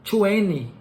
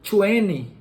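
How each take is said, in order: Both takes have the same delivery.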